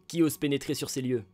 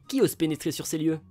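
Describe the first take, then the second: First: The voice sounds mean and menacing. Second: The voice sounds nice and friendly. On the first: The speaker calls it wrong. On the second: The speaker calls it right.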